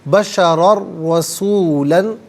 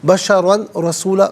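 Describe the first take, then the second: First: The n merges into a doubled r sound. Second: The n is pronounced clearly before the r. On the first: The speaker calls it right. "रॉ की आवाज़ अदा की जाएगी, ना कि तनवीन की" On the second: The speaker calls it wrong. "गलत है"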